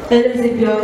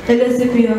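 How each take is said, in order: Both takes have the same delivery.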